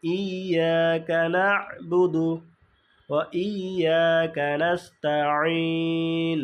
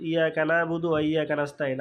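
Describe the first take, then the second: First: ইয়াকা না'বুদু slowly, stopping on the আইন; correct slow recitation. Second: ইয়াকা না'বুদু rattled off fast without the stop; fast and sloppy; wrong rushed reading. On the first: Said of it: "আমাদের পড়তে হবে এইভাবে". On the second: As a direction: rush it like a careless reader. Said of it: "normally এইভাবে পড়ি, এটা যা সঠিক নয়". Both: Shown as a demonstration.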